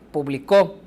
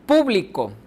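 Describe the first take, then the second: First: The stress is on the last syllable. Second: The stress is on the first syllable. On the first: "en la tercera está al final" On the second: "la sílaba tónica está al principio"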